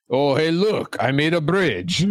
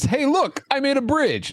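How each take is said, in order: First: It is said in a French accent. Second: It is said in a plain accent.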